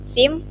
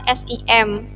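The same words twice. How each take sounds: First: It is pronounced as a single word. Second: Each letter is spoken out separately. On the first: The speaker calls it right. "dibaca langsung SIM" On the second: The speaker calls it wrong. "bukan SIM"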